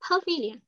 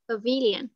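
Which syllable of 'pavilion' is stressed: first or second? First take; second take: first; second. First: The stress is on the first syllable. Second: The stress is on the second syllable. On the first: The speaker calls it right. "Âm 1. Thế thì cô đọc sai rồi, có phải tự sửa chứ?" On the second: The speaker calls it wrong. "Nếu mà có đọc như vậy là âm mấy?"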